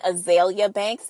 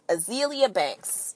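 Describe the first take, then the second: First: The first name sounds like the flower azalea. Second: The first name sounds like it rhymes with Cecilia. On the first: The speaker calls it wrong. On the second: The speaker calls it right.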